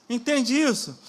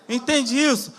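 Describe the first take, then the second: No difference in how they are said.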